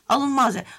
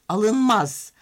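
First: It is said in a louder, raised voice. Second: It is said in a calm, normal voice.

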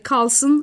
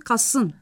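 First: An l sound comes before the s. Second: The l is replaced by a long s. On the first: This is the standard form. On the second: This is the Anatolian dialect form.

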